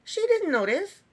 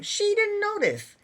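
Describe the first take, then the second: First: High, louder, rising at the end on "didn't"; incredulous repeat. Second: Higher, slow, stressing didn't in disbelief; exasperated disbelief. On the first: Reviewer repeats the point to viewers, incredulous. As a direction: let "didn't" rise in stunned disbelief. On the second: Reviewer marvels the couple never talked, exasperated disbelief. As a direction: hammer home "didn't" in disbelief, slowly. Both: Real, not acted.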